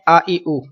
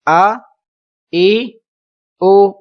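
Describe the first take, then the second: First: آ، ای، او blended in one quick breath as a wrong example; the wrong way: آ ای او slurred together; run-together vowels. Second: آ, ای, او each said apart with a short gap; separate vowels. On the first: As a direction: rush آ ای او together without pauses. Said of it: "تو یہ درست نہیں ہوگا". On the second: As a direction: give آ, ای, او as three distinct sounds. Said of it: "آپ نے الگ الگ پڑھنا ہے". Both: Shown as a demonstration.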